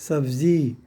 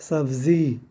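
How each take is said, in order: The two takes are said the same way.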